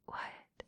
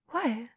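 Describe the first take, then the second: First: Very soft, voiceless query; whispered question. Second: Said in the usual way. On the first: Acted. Dominant questioning muffled partner, whispered. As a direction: whisper it back.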